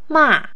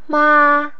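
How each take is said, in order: First: The pitch starts high and falls low. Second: The pitch stays high and level.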